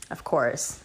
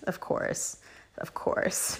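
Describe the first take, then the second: First: Said in the usual way. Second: Whispered, knowing aside; a knowing whispered of course. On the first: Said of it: "of course (repeated, whispered)". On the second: Real, not acted. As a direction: breathe it out under your breath. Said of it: "repeated as an aside".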